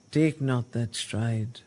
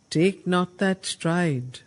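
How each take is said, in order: First: Said in the usual way. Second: "Take not that stride" slow and louder, leaning on "that"; declaimed command. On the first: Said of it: "So Narad once again addresses". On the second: Shown as a demonstration. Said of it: "addresses the gathering and says".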